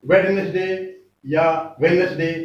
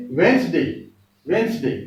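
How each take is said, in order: First: वेडनेसडे with every letter sounded; spell-out वेडनेसडे, d and e pronounced; the common mistaken वेडनेसडे; wrong way. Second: वेंसडे said without the middle d; correct way. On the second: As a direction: say वेंसडे in two short syllables. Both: Shown as a demonstration.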